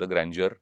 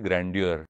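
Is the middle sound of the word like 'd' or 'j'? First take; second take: j; d. First: The middle sound is a soft 'j'. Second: The middle sound is a clear 'd'. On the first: This is the pronunciation the speaker always used. The speaker calls it wrong. "आपण म्हणतो तसे ग्रँज्युअरच" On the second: This is the pronunciation now in common use. The speaker calls it right. "तर ती म्हटली ग्रँड्युअर"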